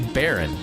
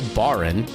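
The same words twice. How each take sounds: First: The first vowel sounds like 'air'. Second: The first vowel sounds like 'ar'. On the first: The speaker calls it right. "you say Baron" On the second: The speaker calls it wrong. "you don't say Baron"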